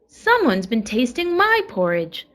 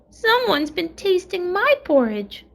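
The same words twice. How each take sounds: First: It is said in a middle-sized voice. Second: It is said in a wee little voice.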